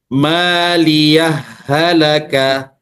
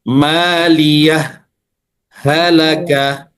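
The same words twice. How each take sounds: First: The h sounds are merged into one. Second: The h sounds are pronounced clearly and separately. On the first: "Kalau dibaca idgham" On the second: "kalau dibaca idhar. Yang penting dia jelas"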